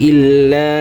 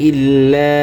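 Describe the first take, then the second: The two takes are said the same way.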